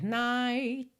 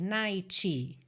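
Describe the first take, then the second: First: The final t is not heard at all. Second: The final t is followed by an extra vowel. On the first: The speaker calls it right. "Quando eu digo nada, é que pode ser night. Eu poderia encerrar aqui o som e você não ouvir esse T marcadinho" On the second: The speaker calls it wrong. "que é considerado um erro de pronúncia ... A gente não tem uma vogal depois desse T"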